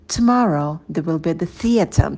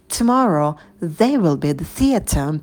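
First: The word they is not stressed. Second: The word they is stressed. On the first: "Здесь у нас ударные слова tomorrow и theater" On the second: "Можем выделить еще they"

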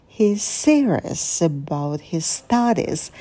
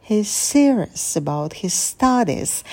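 No difference in how they are said.

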